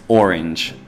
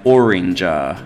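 First: The word ends on the consonant with no added vowel. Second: An extra vowel is added after the final consonant. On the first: The speaker calls it right. "but it's just orange" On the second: The speaker calls it wrong. "they often say after words, and it annoys me a little bit"

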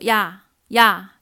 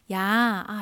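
First: The word is short with a sharp falling pitch. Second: The word is drawn out long and relaxed. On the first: Said when annoyed or angry. "生气的时候会说呀呀，看就像是第四声的感觉" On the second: Said playfully between close friends. "亲密朋友之间会说……这样的拖长一点"

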